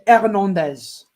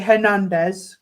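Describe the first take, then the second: First: It is said the French way. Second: It is said the English way.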